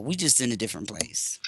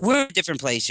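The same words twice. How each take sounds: First: Repeated in a hushed whisper. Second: Said in the usual way. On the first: Shown as a demonstration. Whispering the line again to the listeners. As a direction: drop to a breathy whisper for emphasis.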